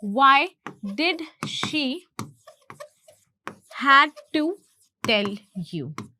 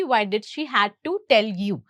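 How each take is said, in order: First: Slow dictation in separated chunks; word by word. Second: Said in the usual way. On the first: Shown as a demonstration. Teacher offering another translation, word by word. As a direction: pause long between small groups of words.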